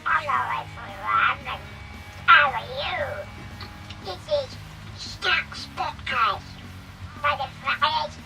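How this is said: It is said in a quacking duck voice.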